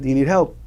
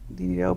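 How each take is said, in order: First: It is said in a louder voice. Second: It is said in a small, quiet voice.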